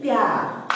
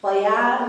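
First: प्यार with a half प, as pyaar; half प sound. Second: प्यार with a full प, as pa-yaar; full first syllable. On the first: Teacher giving learners the joined reading, half-प pronunciation. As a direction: run प straight into य in प्यार, one beat. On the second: Teacher showing what it does not become, full-प pronunciation. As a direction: say प्यार wrongly in two beats, pa-yaar. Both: Shown as a demonstration. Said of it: "प्यार नहीं हो गई".

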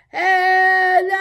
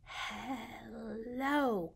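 First: Big, loud, higher hello. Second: Very soft, hushed hello; quiet hello. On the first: Leading babies in saying hello as loudly as possible. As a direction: belt it out. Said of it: "as loudly as we can". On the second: Leading babies in saying hello very quietly. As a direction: say it as softly as you can. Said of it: "as quietly as we can". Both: Shown as a demonstration.

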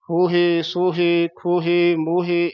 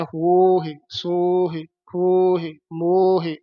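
First: ਹੋਹੇ, ਸੋਹੇ as "ho-he, so-he"; full e ending. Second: ਹੋਹੇ, ਸੋਹੇ as long "hooo-hi, sooo-hi"; short-i ending. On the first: Teacher showing the laan sound, full e endings. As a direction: end ਹੋਹੇ on a clear held e. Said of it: "ਇਹ ਲਾਂ ਦਾ ਉਚਾਰਨ ਹੈ". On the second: Teacher showing sihari sound, falling short endings. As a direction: stretch the first vowel of ਹੋਹੇ, let h fade on short i. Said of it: "ਇਹ ਸਿਹਾਰੀ ਦਾ ਉਚਾਰਨ ਹੈ". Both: Shown as a demonstration.

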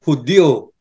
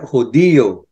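First: Hudyo in two syllables, HUD-yo; Y-O pronunciation. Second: Hudiyo slowly with a long stressed "di"; I-O pronunciation. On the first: Explaining the misspelling, Hudyo without a separate I. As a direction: glide "dyo" in Hudyo as one beat. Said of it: "pag ginamit mo yung Y O". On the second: Explaining the spelling, Hudiyo stretched on the I. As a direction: draw out hu-DI-yo in three syllables. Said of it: "eh yun, I O". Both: Shown as a demonstration.

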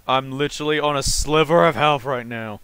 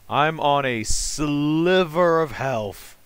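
First: Said in the usual way. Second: Slow, stretched stress on "sliver"; "sliver" held long and leaned on; drawn-out emphasis. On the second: Real, not acted. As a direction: drag out "sliver" to show how little is left.

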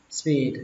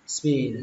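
The two takes are said the same way.

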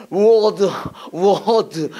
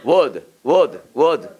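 First: "워드" overdone and stretched out; "워드" drawn out in a mock-English way; unnatural pronunciation. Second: "워드" said smoothly, lower and unforced; "워드" short and smooth, without forcing it; soft, natural pronunciation. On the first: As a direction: demonstrate a forced, unnatural "워드". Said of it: "부자연스럽게 발음하면 안 되는 거예요". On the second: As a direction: model an easy, gentle "워드". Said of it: "부드럽게". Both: Shown as a demonstration.

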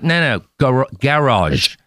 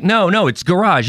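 First: "garage" as GA-rahzh, imitated New Zealand accent; Andrew Jeffries. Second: "garage" as guh-RAHZH, higher-pitched correction; American pronunciation. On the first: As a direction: insist on "garage" with a full first vowel, GA-rahzh. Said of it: "He's like". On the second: Retold or imitated. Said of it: "can you do an American accent".

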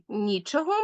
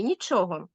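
First: "нічого" stressed on НІ; stress on first syllable. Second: "нічого" stressed on ЧО; stress on second syllable. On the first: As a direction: punch the opening syllable of "нічого". (наголос у слові «нічого» на перший склад: НІ) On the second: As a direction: punch the middle syllable of "нічого". (наголос у слові «нічого» на другий склад: ЧО) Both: Shown as a demonstration. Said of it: "правильно наголошувати такі слова".

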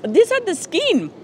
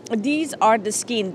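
First: Excited. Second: Said in the usual way. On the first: Real, not acted.

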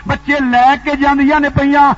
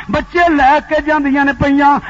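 Both takes have the same delivery.

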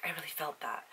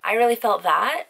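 First: Hushed, softer mock-earnest "I really felt that"; mock moved hush. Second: Louder, higher "I really felt that" with "really" pushed up; emphatic real. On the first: Mocking a teary movie viewer, soft hushed earnest. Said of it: "people will be like". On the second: Real, not acted. Owning the Sultan line to viewers, loud and emphatic. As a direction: declare "I really felt that" with full conviction.

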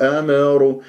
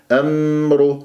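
First: "أمر" with an echoing bounce on meem; wrongly bounced meem. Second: "أمر" with the meem held smoothly; recited "أمر" without any echo after meem; still meem, no bounce. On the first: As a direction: release the meem of "أمر" with a little extra vowel. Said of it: "البعض يقلقلها يقول أمر". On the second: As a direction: say "أمر" resting on a closed, vowelless meem. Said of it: "شوف الميم الساكنة دائمًا أركز عليها". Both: Shown as a demonstration.

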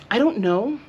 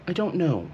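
First: Squeaky uncertain I don't know; high doubtful rise. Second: Said in the usual way. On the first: Real, not acted. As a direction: lift it high, unsure. Doubt about bangs.

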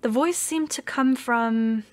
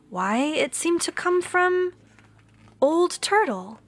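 First: Said in the usual way. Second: Put-on storyteller reveals Old Turtle with wonder; surprised discovery. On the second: A narrator's reading. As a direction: pitch leaps up in wonder at why. Narrator discovers the speaker.

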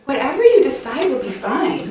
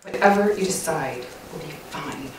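First: Light, upbeat agreement with a lifted, rising lilt; agreeable. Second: Low, quiet, resentful compliance with a falling tune; tone says otherwise. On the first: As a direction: say it easily, as if you truly mean it. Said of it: "say this one of two ways". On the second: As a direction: agree in words while the tone says the opposite. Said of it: "My tone says it all". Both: Shown as a demonstration.

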